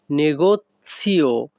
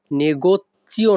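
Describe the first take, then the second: First: "negozio" with a ts sound, ne-got-sio; correct pronunciation. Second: "negozio" with a ch sound, negoccio; wrong pronunciation. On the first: Teacher giving learners the right sound, "negozio" pronounced with ts. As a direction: say "negozio" slowly as ne-got-tsio. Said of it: "এখানে উচ্চারণটা হবে". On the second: Teacher warning learners off a mistake, "negozio" mispronounced with ch. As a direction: say "negozio" wrongly as ne-got-chio. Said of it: "negozio না, কিন্তু এখানে উচ্চারণটা হবে". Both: Shown as a demonstration.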